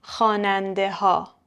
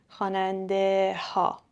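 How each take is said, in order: First: خواننده ها with the h sounded, khanandeh-ha; h kept. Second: خواننده ها again with a clear h, a little quieter; h kept, emphasised. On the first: Teacher checks the student's answer, h kept. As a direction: keep the h in خواننده ها. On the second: Teacher repeats to confirm the h stays. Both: Shown as a demonstration. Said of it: "چون خواننده".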